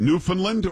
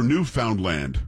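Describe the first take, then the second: First: Newfoundland as NEW-fun-lund; Newfoundland, last two vowels swallowed; reduced syllables. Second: Newfoundland as new-FOUND-land; Newfoundland with clear "found" and "land"; full syllables. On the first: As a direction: run Newfoundland together with weak "fun-lund". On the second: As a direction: say each word inside Newfoundland in full. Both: Shown as a demonstration. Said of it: "is it Newfoundland or Newfoundland".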